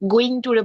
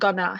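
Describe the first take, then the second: First: The phrase is said in full. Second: The phrase is reduced to one short word.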